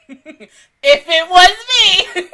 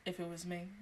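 First: Loud, high and drawn out through laughter; laughing outburst. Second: Very soft, low and sighed; quiet aside. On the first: Imagining herself facing nosy coworkers, loud laughing outburst. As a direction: cry it out slowly while laughing. Laughing repeat of the same words. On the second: Imagining herself facing nosy coworkers, quiet aside. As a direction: murmur it low after a sigh. First take, before laughing repeat. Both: Real, not acted.

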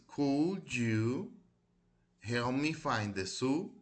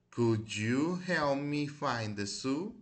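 First: Model pronunciation. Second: Slow model reading. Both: Shown as a demonstration. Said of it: "ya las repetí varias veces".

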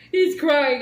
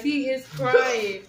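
First: Said in the usual way. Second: Slow down, stress "He"; "He is crying" said slowly with weight on "He"; slow emphatic repeat. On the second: Real, not acted. Wife tells the viewers her husband is crying, slowly and with emphasis.

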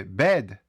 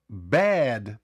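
First: "bad" mispronounced as "bed", narrow short E; неправильна вимова. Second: "bad" drawn out with a wide-open E; широкий голосний. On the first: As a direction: say "bed" with a short, less open E. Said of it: "інакше неправильно вимовити слово". («bed» з вузьким коротким «е») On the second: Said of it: "широко треба відкривати рот". («bad» з широким, протяжним «е») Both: Shown as a demonstration.

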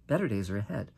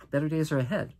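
First: Softer, lower reassurance; warm. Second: Said in the usual way. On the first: Real, not acted. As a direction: quietly promise it. Repeated softer.

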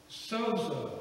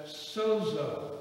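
First: Sozo as SOH-zoh, falling at the end; Sozo, both o's long, first syllable stressed; sozo repeated. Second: Sozo, long o in both syllables, SOH then zoh; sozo pronounced. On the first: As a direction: Sozo set apart as a model word. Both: Shown as a demonstration. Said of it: "we would pronounce it as".

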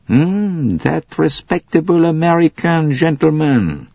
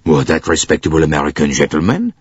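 First: High, knowing echo, falling to a statement; emphatic Poirot. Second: GENTLEMAN rising at the end; questioning echo. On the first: Poirot echoes Bouc's words back, high and knowing. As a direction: confirm it meaningfully in a raised voice. Poirot confirms his suspicion, echoing Bouc. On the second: Bouc queries Poirot's suspicion, GENTLEMAN rising in doubt. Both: A narrator's reading.

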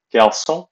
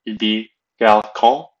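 First: Garçon said with an s sound, gar-SON; French garçon, soft ç like s. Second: Garçon said with a hard k, kar-SON; wrong garçon with hard c. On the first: Teacher demonstrating the correct French garçon. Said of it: "Notice the, uh, accent on the C". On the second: Teacher showing the wrong way to say garçon, mispronounced. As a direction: incorrect garçon, c like k. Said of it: "is an incorrect pronunciation". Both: Shown as a demonstration.

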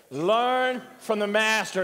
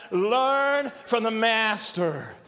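First: Said in the usual way. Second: Slow, drawn-out LEARN and MASTER; thoughtful. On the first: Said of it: "Say that with me". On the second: Shown as a demonstration. Preacher leading congregation to think about it, "Learn from the master" slow and deliberate. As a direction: stretch "Learn from the master" slowly, letting each word sink in. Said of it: "Now say it and think about it".

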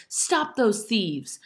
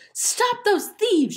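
First: Slow, higher-pitched call for help; strong shout. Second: Very high, loud, drawn-out scream. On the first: Ellen raises the alarm, strong drawn-out shout. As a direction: shout each word out slowly. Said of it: "shouting those words in a loud, strong voice". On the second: Ellen chases the thieves, high loud scream. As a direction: scream it slowly for help. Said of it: "she screamed". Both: A narrator's reading.

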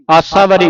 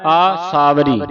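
First: ਆਸਾਵਰੀ run together quickly as "assavari"; wrong short vowels. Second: ਆਸਾਵਰੀ with long, separate "aa-saa"; long opening vowels. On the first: Teacher warns student off misreading, ਆਸਾਵਰੀ squashed to "assavari". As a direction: rush ਆਸਾਵਰੀ with short first a. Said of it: "ਆਸਾਵਰੀ ਨਹੀਂ ਪੜ੍ਹਨਾ ਇਹਨੂੰ". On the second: Teacher models for student to repeat, ਆਸਾਵਰੀ as long "aa-saavari". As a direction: draw out both aa sounds in ਆਸਾਵਰੀ. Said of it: "ਐੜਾ ਸੰਬੰਧਕ ਲਾ ਦੇਣਾ ਹੈ". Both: Shown as a demonstration.

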